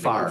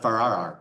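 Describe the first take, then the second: First: The name is said with one syllable. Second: The name is said with two syllables. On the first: The speaker calls it right. "So it's just" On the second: The speaker calls it wrong.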